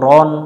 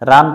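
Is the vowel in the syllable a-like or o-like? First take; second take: o-like; a-like. First: The vowel is heavy and sounds like o. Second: The vowel is light and sounds like a. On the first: The speaker calls it right. "র মিলবে নুনের সাথে রন" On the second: The speaker calls it wrong. "রান পড়া যাবে না এখানে"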